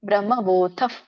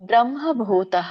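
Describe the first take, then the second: First: The word ends with a breathy f-like sound. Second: The word ends with a full ha syllable. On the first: The speaker calls it right. "ಭೂತಫ್ ಅಂತ ಹೇಳ್ಬೇಕು" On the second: The speaker calls it wrong. "ತಹ ಅಂತ ಹೇಳ್ಬೇಡಿ"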